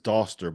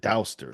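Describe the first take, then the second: First: The first vowel is a plain vowel. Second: The first vowel is an 'ow' sound. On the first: The speaker calls it right. "my last name is Doster" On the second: The speaker calls it wrong. "see the A U and pronounce it Douster"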